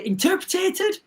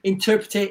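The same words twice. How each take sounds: First: Interpreted? lifted high at the end as a puzzled query; unsure high rise on interpreted?; doubtful rising question. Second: Said in the usual way. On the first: Shown as a demonstration. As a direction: ask whether interpreted? is even a word. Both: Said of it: "Is that a word?".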